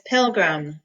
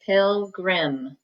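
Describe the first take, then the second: First: Said in the usual way. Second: "pilgrim" read as spelt, with a full "grim"; spelling pronunciation. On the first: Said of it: "but it looks like pilgrim". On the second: Shown as a demonstration. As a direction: say "pilgrim" as pil-GRIM, clear short I. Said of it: "it looks like pilgrim".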